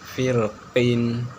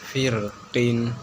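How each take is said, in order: No difference in how they are said.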